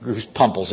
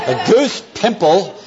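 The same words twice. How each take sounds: First: "pimples" said as "pumples"; mispronounced "pimples". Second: Said in the usual way. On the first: Real, not acted. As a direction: say "pimples" with UH for the first vowel. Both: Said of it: "Have you ever heard of a goose pimple".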